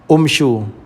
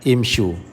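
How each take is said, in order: First: The word begins with a 'u' vowel. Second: The word begins with an 'i' vowel. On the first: The speaker calls it wrong. "tak boleh baca hamzah wasal itu dengan dhammah" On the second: The speaker calls it right. "baca dengan kasrah"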